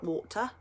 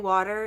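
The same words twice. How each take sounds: First: It is said with a New Zealand accent. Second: It is said without a New Zealand accent. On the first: This is how locals say it. "and not water" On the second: This is how the speaker normally says it. "I do not speak like a New Zealander. Um, I say water"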